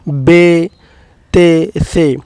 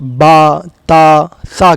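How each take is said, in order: First: The letter names end in an e vowel. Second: The letter names end in a long a vowel. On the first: The speaker calls it wrong. "ना कि" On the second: The speaker calls it right. "मारूफ़ यानी अरबी लहज़े में"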